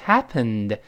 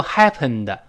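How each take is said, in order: First: "happened" with the final d barely released; unreleased d. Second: "happened" with a heavy "de" tacked on; wrong released ending. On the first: Teacher models happened for learners, d not exploded. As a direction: end "happened" on the n, d held in. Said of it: "那个的失去爆破了". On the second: Teacher shows happened to avoid, heavy final d. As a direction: voice the final d of "happened" as an extra syllable. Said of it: "注意不要读happened". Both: Shown as a demonstration.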